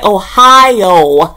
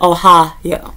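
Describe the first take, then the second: First: It sounds like the English state name. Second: It sounds like the Japanese greeting ohayo. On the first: The speaker calls it wrong. "I always want to say Ohio" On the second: The speaker calls it right. "instead of Ohio"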